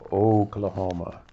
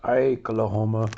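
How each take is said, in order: First: The first syllable sounds like 'oh'. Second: The first syllable sounds like 'eye'. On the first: The speaker calls it right. "It's Oklahoma" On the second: The speaker calls it wrong. "it's not Ike-lahoma"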